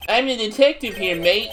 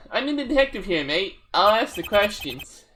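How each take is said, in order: First: Detective with a put-on Aussie twang; mild Australian accent; Australian-ish accent. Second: Put-on the same light Aussie accent, quicker, with a sigh; a second take of the Aussie detective; lightly voiced Australian detective; Australian-ish accent, redone. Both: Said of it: "so I did the accent".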